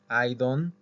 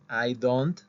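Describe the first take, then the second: First: The final t of don't is dropped. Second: The final t of don't is clearly pronounced. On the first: The speaker calls it right. "esta T no se pronuncia, se omite" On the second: The speaker calls it wrong. "no dicen I don't"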